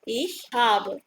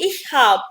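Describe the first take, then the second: First: The final vowel of the verb is pronounced. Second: The final vowel of the verb is dropped.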